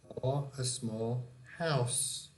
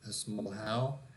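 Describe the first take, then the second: First: The last word ends with a final s sound. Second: The last word ends without a final s sound. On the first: The speaker calls it right. "the final sound is S, house" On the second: The speaker calls it wrong. "here this one is wrong"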